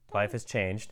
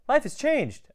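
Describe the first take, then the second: First: It is said in a grudging, sour tone. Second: It is said in a cheerful, positive tone. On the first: The change is not welcome. The speaker calls it wrong. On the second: The change is a good one. The speaker calls it right.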